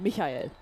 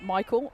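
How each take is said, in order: First: The name has a German pronunciation. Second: The name has an English pronunciation.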